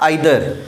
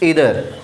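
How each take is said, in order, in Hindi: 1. पहला स्वर 'eye' जैसा बोला जाता है। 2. पहला स्वर 'ee' जैसा बोला जाता है। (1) "it's not आइदर" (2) "it's ईदर"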